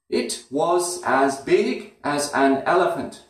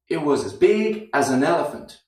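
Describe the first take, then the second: First: Every word is fully pronounced with flat rhythm. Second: Small words are reduced, giving an up-down rhythm. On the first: The speaker calls it wrong. "without the rhythm, without the, the weak forms, just flat" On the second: The speaker calls it right. "Now we have this rhythm, and that sounds good"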